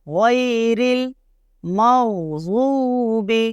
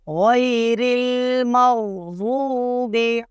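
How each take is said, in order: The two takes are said the same way.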